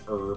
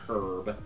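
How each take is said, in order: First: The word begins with a vowel, h silent. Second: The word begins with an audible h sound. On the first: "they will not like me doing that" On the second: "and not herb"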